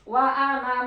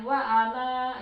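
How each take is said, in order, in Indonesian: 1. Vokal akhir pada ana pendek. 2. Vokal akhir pada ana panjang. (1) "kalau disambung" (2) "kalau di wakaf dia dibaca panjang"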